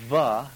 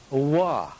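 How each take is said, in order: First: It begins with a V sound, lips touching. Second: It begins with a W sound, lips rounded. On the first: The speaker calls it right. "a labial, va, where you use one of the lips, va, the V sound" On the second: The speaker calls it wrong. "to an English sonnet, wa, where you don't really bring your lips together"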